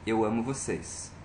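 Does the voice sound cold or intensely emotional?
cold. It is said coldly, without feeling.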